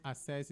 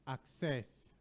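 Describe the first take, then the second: First: "access" said as "assess", a-SESS; only an S sound in "access". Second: "access" with a K, AK-sess. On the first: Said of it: "The one pronounced access". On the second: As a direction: sound K then S in "access". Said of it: "but this one is". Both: Shown as a demonstration.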